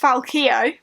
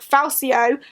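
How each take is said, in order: First: The middle consonant is a k sound. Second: The middle consonant is not a k sound. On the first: The speaker calls it right. "it's pronounced Falkio" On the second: The speaker calls it wrong. "have been getting that wrong"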